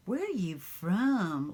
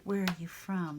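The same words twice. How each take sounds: First: Where ARE you from? with "are" slow and stretched, louder; surprised stress on are. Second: Said in the usual way. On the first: Retold or imitated. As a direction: lean hard on "are", slowly and louder, like a surprised stranger. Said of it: "They go". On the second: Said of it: "they don't go".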